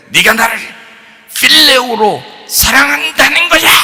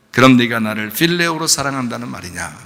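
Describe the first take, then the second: First: Harsh scolding demo. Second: Gentle questioning. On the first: Preacher shows how Jesus would not ask Peter, harsh shouting. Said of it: "이렇게 하면 이제 억양이 다르잖아요". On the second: Jesus asks Peter after the resurrection, gently. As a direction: ask it gently, without any accusation. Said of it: "부드럽게 말씀하셨겠죠". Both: Shown as a demonstration.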